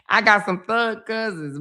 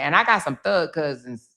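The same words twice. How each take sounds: First: Laughing through the line. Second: Said in the usual way. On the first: Real, not acted. Repeating to the audience about her thug cousins, laughing. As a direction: say it again while cracking up.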